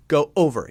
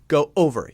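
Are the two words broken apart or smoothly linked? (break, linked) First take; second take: break; break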